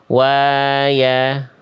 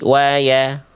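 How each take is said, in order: First: The vowel after y is drawn out long. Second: The vowel after y is kept short. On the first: The speaker calls it wrong. "jangan dibaca" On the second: The speaker calls it right. "satu harokat, nggak dibaca panjang"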